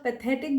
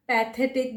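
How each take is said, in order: First: "पैथेटिक" with a short first vowel, puh-THET-ik; correct pronunciation. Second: "पैथेटिक" opening on a full pae vowel; common mispronunciation. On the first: Teacher giving learners the right "पैथेटिक", short first vowel. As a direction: keep the start of "पैथेटिक" short. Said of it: "अगर आप पैथेटिक बोलेंगे". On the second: Teacher showing learners the wrong "पैथेटिक", first syllable full. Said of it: "कुछ लोग उसको". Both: Shown as a demonstration.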